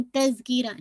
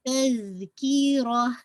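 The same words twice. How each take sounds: First: तज़कीरा quick, with the z cut short; wrongly cut short. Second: तज़कीरा very slow, the z held on; correct flowing sound. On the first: Teacher shows what not to do, cut-short recitation. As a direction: say तज़कीरा briskly, stopping the z sound. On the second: Teacher models the correct word, slow flowing recitation. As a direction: draw out तज़कीरा with the sound running through. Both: Shown as a demonstration. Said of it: "ऐसे करके रोकेंगे नहीं".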